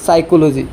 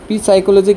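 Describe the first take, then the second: First: The word starts with an s sound, no p. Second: The word starts with an audible p sound. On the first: The speaker calls it right. "সঠিক উচ্চাৰণটো হ'ল" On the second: The speaker calls it wrong. "কেতিয়াও উচ্চাৰণ নহয়, এইটো ভুল।"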